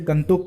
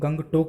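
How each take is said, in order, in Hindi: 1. g silent है, इसलिए केवल सादा n रह जाता है। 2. ng के बाद एक g की ध्वनि सुनाई देती है। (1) "लेप्चा भाषा ... गंतोक पढ़ा जाएगा" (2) "जिसको हम गंगटोक बोलते हैं"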